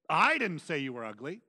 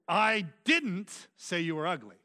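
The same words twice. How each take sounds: First: The stress falls on the word I. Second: The stress falls on the word didn't. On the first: Someone else said it. "which means someone else said you" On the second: It is an emphatic denial. "which is just an emphatic form of that"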